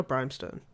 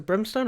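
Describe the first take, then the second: First: Brimstone with a long i, like "brime"; long-i pronunciation. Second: Brimstone with a short i, like "brim"; short-i pronunciation. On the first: Host offering co-host the other option, long-i Brimstone. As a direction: say the first vowel of Brimstone as in "time". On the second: Host asking co-host which name is right, short-i Brimstone. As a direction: say the first vowel of Brimstone as in "him". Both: Shown as a demonstration. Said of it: "is it Brimstone or Brimstone?".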